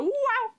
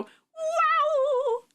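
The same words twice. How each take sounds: First: Short, high, contained "wow"; toned-down launch whoop. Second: Big, high, drawn-out Mario-style "wow"; long, high cartoon launch cry; loud launch whoop. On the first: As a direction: whoop high but hold back the volume. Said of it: "don't do that one as loud anymore". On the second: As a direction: let the high whoop ring out at full size. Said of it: "But that's too loud". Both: Shown as a demonstration.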